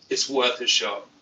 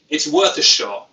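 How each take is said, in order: First: Said in the usual way. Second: Punchy louder take on worth. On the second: Shown as a demonstration. Vlogger repeats his line, louder the first time. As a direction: lean into it louder, a touch higher.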